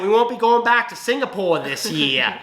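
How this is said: It is said in a put-on Boston accent.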